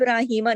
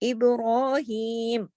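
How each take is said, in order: First: The word ends with an added 'a' vowel. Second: The word stops on a bare final m. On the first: The speaker calls it wrong. "इसको इब्राहिमा नहीं पढ़ेंगे" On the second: The speaker calls it right. "जब रुकते हैं तो आखिरी हरकत ... पॉज कर देते हैं"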